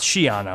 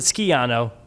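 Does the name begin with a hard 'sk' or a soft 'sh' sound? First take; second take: soft sh; hard sk. First: The name begins with a soft 'sh' sound. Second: The name begins with a hard 'sk' sound. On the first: The speaker calls it right. "it's Schiano" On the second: The speaker calls it wrong. "How we how we said Skiano"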